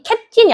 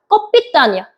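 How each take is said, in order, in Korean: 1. 영어식 발음으로 읽어요. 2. 러시아식 발음으로 읽어요. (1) "발음이 캡틴이 아니라" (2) "소련식 발음. 그러니까 북한식 발음이에요"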